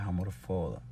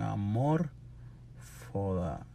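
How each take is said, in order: First: The stress falls on the syllable fo. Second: The stress falls on the syllable mor. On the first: The speaker calls it right. "Y no tiene acento. So, es" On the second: The speaker calls it wrong. "si fuera Esdrújula, se supone que lleva acento en"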